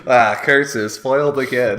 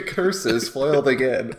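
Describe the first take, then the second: First: Hammed-up loud cartoon villain; mustache twirling villain. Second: Mustache twirling villain. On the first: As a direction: cry out like a foiled cartoon villain. Mock villain defeat line. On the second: Pretend. Villain line repeated laughing.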